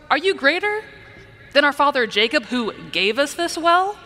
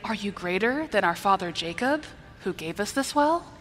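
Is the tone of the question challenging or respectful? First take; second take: challenging; respectful. First: The question sounds skeptical and challenging. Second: The question sounds polite and respectful. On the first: The question doubts the listener's claim. The speaker calls it right. "It's more of" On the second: The question shows honor toward the listener. The speaker calls it wrong. "It's kind of hard to respectfully say"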